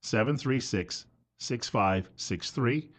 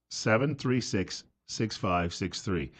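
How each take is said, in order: First: Number read slowly and softly; slow, clear phone number. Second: Number read slowly and softly once more; slow, soft number read for listeners jotting it down; slow, clear phone number. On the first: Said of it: "give you the telephone number". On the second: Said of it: "a couple of times". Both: Real, not acted. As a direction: spell out each digit deliberately.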